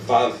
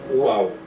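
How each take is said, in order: First: The word begins with a V sound. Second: The word begins with a U sound. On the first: The speaker calls it wrong. "ao invés do V" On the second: The speaker calls it right. "vai ser mais puxado pro U"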